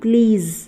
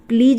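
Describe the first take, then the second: First: The word ends with a 'z' sound. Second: The word ends with a 'j' sound. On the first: The speaker calls it right. "ज पे जो है बिंदी आ गई है तो ये ज बन गया" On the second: The speaker calls it wrong. "प्लीज नहीं"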